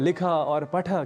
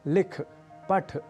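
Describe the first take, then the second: First: The final short a vowels are pronounced. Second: The final short a vowels are dropped. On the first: The speaker calls it right. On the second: The speaker calls it wrong.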